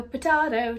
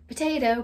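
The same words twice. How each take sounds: First: "potato" with "tah" in the middle; broad-a "potato"; contrasting pronunciation. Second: "Potato" with "tay" in the middle; long-a "Potato"; usual pronunciation. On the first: Playing on two pronunciations, "potato" with "tah". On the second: Playing on two pronunciations, "Potato" with long a. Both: Shown as a demonstration.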